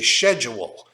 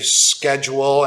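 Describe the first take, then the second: First: It is pronounced the British way. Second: It is pronounced the American way. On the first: "in the U K they say schedule" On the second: "in the United States we say schedule"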